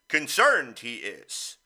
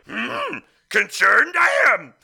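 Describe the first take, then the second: First: It is said in his normal voice. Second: It is said in a Yoda impression.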